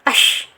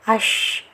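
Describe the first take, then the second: First: The sound is held back and cut short. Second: The sound flows on with voice and breath. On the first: The speaker calls it wrong. "Jangan ash, ash. Jangan ditahan ya" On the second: The speaker calls it right. "mengalirnya dari segi nafas dan mengalirnya dari segi suara"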